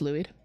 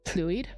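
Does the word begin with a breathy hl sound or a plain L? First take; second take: plain L; breathy hl. First: It begins with a plain, voiced L sound. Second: It begins with a breathy, hissing hl sound. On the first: "because it's just one L" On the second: "the more Welshy sound, like the hl"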